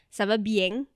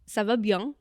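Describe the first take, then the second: First: It is spoken with a southern Marseille accent. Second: It is spoken with a Parisian French accent. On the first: "Kalau di Marseille, daerah pesisir laut" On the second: "kalau di Paris"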